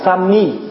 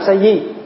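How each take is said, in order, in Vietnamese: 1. Âm tiết thứ hai được phát âm là mi. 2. Âm tiết thứ hai được phát âm là di. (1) "người Trung Hoa đọc là sami" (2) "chứ không có đọc sa di"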